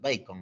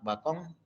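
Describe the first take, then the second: First: It is pronounced the English way. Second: It is read the Spanish way, as spelled. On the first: The speaker calls it right. "tenemos que hablar en inglés, pues, Bacon" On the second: The speaker calls it wrong. "Acá está su apellido Bacon"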